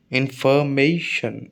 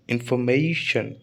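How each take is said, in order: First: "इन्फॉर्मेशन" slowly, as इन, फॉर, मे, शन; syllable by syllable. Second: Said in the usual way. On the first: Shown as a demonstration. Teacher counting four syllables, "इन्फॉर्मेशन" slow and measured. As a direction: stretch "इन्फॉर्मेशन" over four clear beats. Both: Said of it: "चार syllable हैं".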